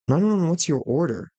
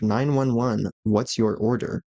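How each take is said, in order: First: The words run together loosely and less clearly. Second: Each word is articulated carefully and distinctly.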